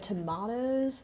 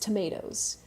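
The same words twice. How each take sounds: First: It is said with a British pronunciation. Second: It is said with an American pronunciation. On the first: "Why did I say it like that?" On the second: "I'm so American, and it, it's tomatoes"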